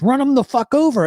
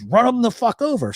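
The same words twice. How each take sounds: First: High, loud urgent yell; yelled order. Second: High, insistent repeat of the order; yelled order. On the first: Accomplice yelling at the driver to run him over, loud and high. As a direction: bark it like a panicked accomplice. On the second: Accomplice repeating his order to the driver, high and insistent. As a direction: push the order again, high and firm. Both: Retold or imitated.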